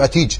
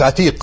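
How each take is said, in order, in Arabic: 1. تنتهي الكلمة بصوت j. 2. تنتهي الكلمة بصوت q.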